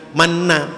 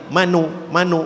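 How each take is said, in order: First: The n is doubled with no vowel between. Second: A quick, faint u follows the n. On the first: The speaker calls it wrong. "jangan manna" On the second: The speaker calls it right. "tapi manu manu"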